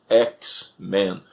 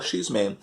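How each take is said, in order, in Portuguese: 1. O X é dito com o nome da letra em inglês. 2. O X é dito com o nome da letra em português. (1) "tinha a letra X, que em inglês se pronuncia X, seria então X-Men" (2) "então eu falava X-Men"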